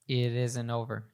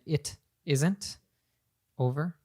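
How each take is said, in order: First: The T in isn't becomes a soft flap. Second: The T in isn't is said clearly. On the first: "she says it isn't over. ... American T there" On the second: "instead of saying"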